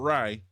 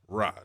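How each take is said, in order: First: The vowel is a glide, like 'rye'. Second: The vowel is an open 'ah', like 'rah'. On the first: The speaker calls it wrong. "not Rye" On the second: The speaker calls it right. "Ra, not Rye"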